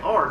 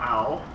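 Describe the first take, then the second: First: The letter is said with a plain 'ar' sound. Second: The letter is said so it sounds like 'owl'. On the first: The speaker calls it right. "Say R" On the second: The speaker calls it wrong. "not owl"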